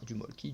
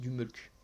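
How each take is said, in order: First: The word ends in an 'ee' vowel. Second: The word ends in an 'oo' vowel. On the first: The speaker calls it wrong. "je sais que vous le lisez Molki" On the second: The speaker calls it right. "faut le dire comme il faut quand même"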